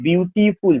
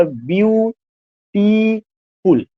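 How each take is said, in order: First: Said in the usual way. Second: beautiful very slowly as "byu... ti... ful"; beautiful broken into three drawn-out beats; syllable by syllable. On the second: Shown as a demonstration. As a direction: hold and stop on each of the three syllables of beautiful. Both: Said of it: "ब्यू पे रुक रहा".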